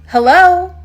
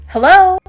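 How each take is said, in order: No difference in how they are said.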